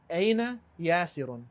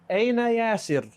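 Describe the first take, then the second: First: The name ends with a full -un vowel ending. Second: The name ends on a bare consonant, no vowel. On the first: This is the full written grammatical form. "this is the correct harakah" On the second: This is the pause form at sentence end. "That's the correct way to say this"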